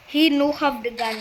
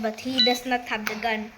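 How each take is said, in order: First: Teasing broken-English repeat; mock broken English. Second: Said in the usual way. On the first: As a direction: toss it off in joking pidgin.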